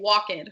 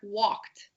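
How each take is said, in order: First: It has an extra syllable at the end. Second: It is one syllable ending in t. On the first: The speaker calls it wrong. "put an extra syllable at the end" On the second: The speaker calls it right. "sometimes it makes a t sound"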